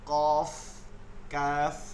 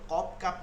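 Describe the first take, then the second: First: Each word ends with an f sound. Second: Each word ends with a p sound. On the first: The speaker calls it right. "কি হবে, কফ কাফ" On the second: The speaker calls it wrong. "কপ খেয়াল করবেন কখনো প হবে না"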